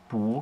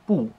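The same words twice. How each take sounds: First: The syllable is said with a rising tone. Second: The syllable is said with a falling tone. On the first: "wird sie im zweiten Ton gelesen" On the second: "Normalerweise ist die im vierten Ton"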